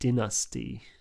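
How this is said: It is said with a British or Australian pronunciation. "The U K slash Oz pronunciation is"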